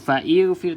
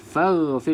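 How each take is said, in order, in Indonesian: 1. Hentian glotal dan bunyi i tambahan memisahkan fa. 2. Fa langsung menyambung ke ghfir tanpa jeda.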